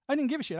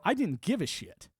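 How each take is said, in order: First: I pitched much higher and punched hard; emphatic repeat. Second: Said in the usual way. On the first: Real, not acted. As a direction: hit the repeat harder and higher on I.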